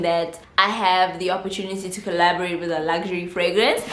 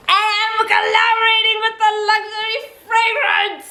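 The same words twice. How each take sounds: First: Said in the usual way. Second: High-pitched triumphant squeal; uncontained excitement. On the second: Real, not acted. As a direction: announce it way up high, bursting with excitement. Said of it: "I can't contain my excitement".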